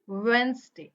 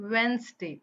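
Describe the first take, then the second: First: The d sound is silent in the middle. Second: The d sound is silent in the middle.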